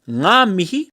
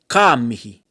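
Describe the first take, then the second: First: The first word begins with an ng sound. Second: The first word begins with a k sound. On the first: "you might have ngā mihi" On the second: "the N G sound pronounced like a K"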